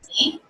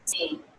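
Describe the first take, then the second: First: The pitch goes up at the end. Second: The pitch goes down at the end. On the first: It is a question. "questions, ... go up in pitch at the end" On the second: It is a statement. "statements, ... go down in pitch"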